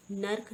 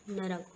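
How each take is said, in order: First: नर्क in one syllable, nark; wrong pronunciation. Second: नरक in two syllables, na-rak; vowel between r and k in नरक; correct pronunciation. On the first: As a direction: squeeze r and k together in नर्क. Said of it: "नहीं होता". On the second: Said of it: "होता है". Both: Shown as a demonstration.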